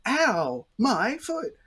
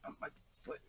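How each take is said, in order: First: Loud, high theatrical cry of hurt; hammed-up injury wail; overdone pain. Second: Hushed, barely voiced mumble of hurt; tiny suppressed complaint under the breath; hiding pain. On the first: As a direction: yell it out for the whole food court to hear. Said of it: "they're not gonna go". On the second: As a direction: keep the pain to yourself, almost whispering. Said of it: "if someone's nearby and sees them".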